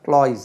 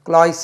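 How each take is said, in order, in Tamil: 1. இந்த வார்த்தை ரீங்கரிக்கும் z ஒலியில் முடிகிறது. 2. இந்த வார்த்தை சீறும் s ஒலியில் முடிகிறது. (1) "ஜெட்டில் முடியும்" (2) "இல்லை"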